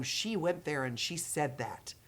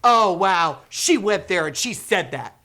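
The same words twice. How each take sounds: First: Hushed reaction. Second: Much louder, cheering exclamation; loud excited reaction. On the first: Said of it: "They'll either have the reaction of". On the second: Educators cheering the video, loudly excited. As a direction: call it out with delight. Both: Retold or imitated.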